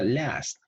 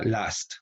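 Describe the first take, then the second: First: Last with the front A of English cat; front A demo. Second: Last with an open "ah"; open A demo. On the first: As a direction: say last with A leaning toward "eh", higher pitched. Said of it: "acá era last". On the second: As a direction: say last as "lahst". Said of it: "pero acá last". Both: Shown as a demonstration.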